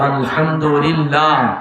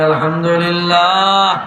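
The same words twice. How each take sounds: First: It is said at moderate loudness. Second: It is said louder and more forcefully.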